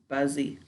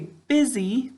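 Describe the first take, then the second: First: The first syllable sounds like 'buzz'. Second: The first syllable sounds like 'biz'. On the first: This is a spelling pronunciation to help remember the letters. "how do we say it when we spell it? Excellent, we say buzzy" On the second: This is how the word is said in normal speech. "how do we say this word when we're talking? Good, we say busy"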